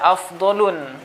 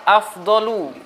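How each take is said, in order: First: The word ends with an added final n sound. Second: The word ends on a vowel without final n. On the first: The speaker calls it wrong. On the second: The speaker calls it right.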